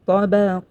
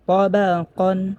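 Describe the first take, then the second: First: The word ends in a stretched long vowel. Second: The word ends with a short an sound. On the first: The reader stops at this word. "যদি ওয়াকফ করা হয়" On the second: The reader continues without stopping. "যদি ওয়াকফ না করা হয় তাহলে পড়তে হবে তাবাকান"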